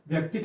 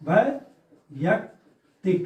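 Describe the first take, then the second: First: The word begins with a short 'vyak' sound. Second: The word begins with a longer 'vaiyak' sound. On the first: The speaker calls it wrong. "व्यक्तिक नहीं होता" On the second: The speaker calls it right. "वैयक्तिक होता है"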